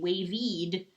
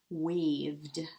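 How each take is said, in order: First: An extra "ee" vowel comes before the final d. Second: No extra vowel comes before the final d. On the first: The speaker calls it wrong. "this would say wavied. Wavied? Doesn't sound right" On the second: The speaker calls it right. "Pretty good"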